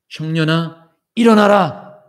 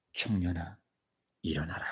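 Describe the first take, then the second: First: Building command. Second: Low quiet call. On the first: ("청년아, 일어나라"를 크게 외치듯) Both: Acted. Jesus at the coffin.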